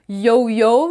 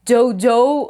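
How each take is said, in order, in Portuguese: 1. O nome começa com som de Y. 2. O nome começa com som de J.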